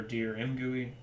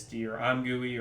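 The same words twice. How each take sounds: First: "M gooey" with M said as the letter name; alternative pronunciation. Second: "I'm gooey" with the first part said like "I'm"; alternative pronunciation. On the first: Developer offering another way to say the library name, alternative pronunciation. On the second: Developer unsure how to pronounce the library name, offering a pronunciation. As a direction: say "I'm gooey", opening on the sound of "I'm". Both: Shown as a demonstration. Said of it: "best way to pronounce that".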